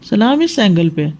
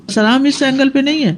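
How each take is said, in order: First: Teacher correcting, stressing اس. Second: اس stressed, falling tune; teacher stressing اس. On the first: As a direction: mark the right angle with اس. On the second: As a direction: point out the wrong angle with اس. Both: Shown as a demonstration.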